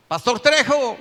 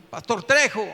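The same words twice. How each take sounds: First: Loud, raised call from outside; shouting. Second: Raised, slightly louder shout; calling out. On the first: Man outside the pastor's locked house at night, shouting. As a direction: call out to someone shut indoors. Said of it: "gritaba yo". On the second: Man still waiting outside the pastor's house, calling out. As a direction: call up to a closed house. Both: Retold or imitated.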